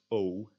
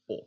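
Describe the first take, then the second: First: "O" as in "go", close and rounded; tense O. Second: "O" open and short, as in "off"; lax O. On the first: Teacher contrasting two vowel sounds, tense O. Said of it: "is pronounced tense O". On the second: Teacher contrasting two vowel sounds, lax O. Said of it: "in contrast to the lax version". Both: Shown as a demonstration.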